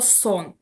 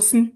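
First: A full o vowel sits between s and n. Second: The consonants s and n have no vowel between. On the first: This is the later, easier reading of the word. "і тому це ставало сон. Більш таке м'яке слово" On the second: This is the old reading of the word. "Просто сн і все"

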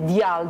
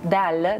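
First: The diphthong starts with an i sound. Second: The diphthong starts with an e sound. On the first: The speaker calls it wrong. "nu este dial" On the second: The speaker calls it right. "dar deal"

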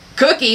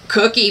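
First: It sounds like a refusal. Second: It sounds regretful and too full.

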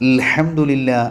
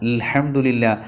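The two takes are said the same way.

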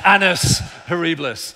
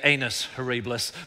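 First: The first word sounds like 'annus'. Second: The first word sounds like 'anus'. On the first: The speaker calls it right. "but it's annus horribilis" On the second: The speaker calls it wrong. "I'm always careful not to say anus horribilis"

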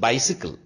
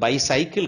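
First: The middle syllable sounds like 'si'. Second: The middle syllable sounds like 'sai'. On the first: The speaker calls it right. "It is பைசிக்கிள்" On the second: The speaker calls it wrong. "இது பைசைக்கிள் கிடையாது, நிறைய பேர் தப்பா சொல்லுவோம்"

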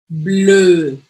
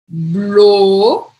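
First: The vowel is pronounced like French 'eu'. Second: The vowel is pronounced like an 'o'. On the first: The speaker calls it right. "com E" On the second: The speaker calls it wrong. "Isso aqui é o"

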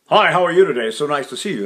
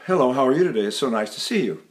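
First: The voice sounds tense and intense. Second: The voice sounds easy and relaxed.

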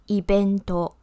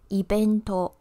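First: It is said with a Japanese b sound. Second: The same.

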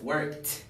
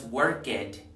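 First: The ending is a short t sound. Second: The ending adds an extra 'id' syllable. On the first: The speaker calls it right. "Esto se pronuncia worked" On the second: The speaker calls it wrong. "no es worked"

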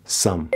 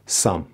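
Both takes have the same delivery.

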